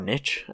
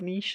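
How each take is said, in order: First: It is said the American way. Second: It is said the British way.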